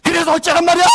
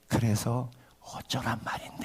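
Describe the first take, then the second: First: It is said in a raised, high tone. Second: It is said in a lowered, calm tone.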